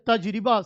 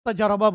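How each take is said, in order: First: The word is said fully in three syllables. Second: The word is shortened to two syllables. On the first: This is the original full form of the word. "तजरिबा असल लफ्ज़ है, पूरा pronunciation" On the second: This is the everyday spoken form. "Urdu में हम क्या बोलते हैं, तजर्बा बोलते हैं"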